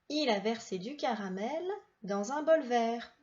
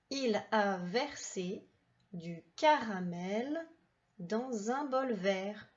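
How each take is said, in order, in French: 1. La phrase est lue plus vite. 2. La phrase est lue plus lentement.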